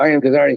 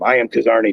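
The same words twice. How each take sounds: First: It is said in a somewhat raised pitch. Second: It is said in a natural, lower pitch.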